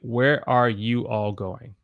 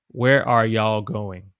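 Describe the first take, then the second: First: Every word is said in full. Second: You all is contracted to y'all. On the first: "where I want to say" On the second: "But when I say it"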